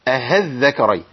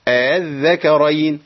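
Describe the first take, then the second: First: The second hamza is replaced by an h sound. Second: The second hamza is softened between hamza and alif. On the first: The speaker calls it wrong. "بعضهم بيقول أهذكرين، واظن ان دول جانبهم الصواب" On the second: The speaker calls it right. "بخلي الهمزة الثانية بين الهمزة وبين الألف"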